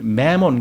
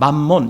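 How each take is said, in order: First: It is said with an English-style pronunciation. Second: It is said with the usual Korean reading. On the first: "영어식 발음은 매몬인데" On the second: "우리는 그냥 만몬 이렇게 읽죠"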